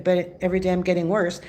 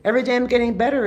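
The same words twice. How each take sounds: First: Said in the usual way. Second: Upbeat affirmation. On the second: Shown as a demonstration. Coaching viewers, the upbeat good choice. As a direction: sell the better choice. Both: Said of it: "Two choices".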